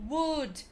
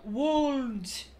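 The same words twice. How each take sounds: First: Would said as wood; silent l. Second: Would with a clear l, slowly; l sounded. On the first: Teacher modelling the right would. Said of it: "não vai pronunciar aquele L". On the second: Teacher showing the wrong would. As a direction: say would as wuld. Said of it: "e não". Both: Shown as a demonstration.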